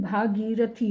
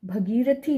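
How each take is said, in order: First: भागीरथी with a long आ in भा; correct long vowel. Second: भगीरथी with a short अ in भ; wrong short vowel. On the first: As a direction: stretch the first vowel of भागीरथी. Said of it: "भागीरथी होता है". (भागीरथी में 'भा' लंबा बोलें) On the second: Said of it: "भगीरथी नहीं". (भगीरथी में 'भ' छोटा बोलें) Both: Shown as a demonstration.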